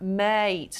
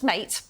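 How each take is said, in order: First: "Mate" stretched long, closed on a snapped T; elongated vowel. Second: Said in the usual way. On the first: Shown as a demonstration. Explaining the advert's design, "Mate" with elongated vowel. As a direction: hold the vowel in "Mate", then snap the T. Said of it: "the elongated vowel gets your attention". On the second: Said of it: "Not just mate".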